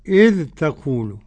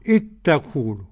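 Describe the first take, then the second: First: The dh is pronounced clearly before the t. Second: The dh merges into a single doubled t. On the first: "والباقون بالإظهار" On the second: "تاء مشددة"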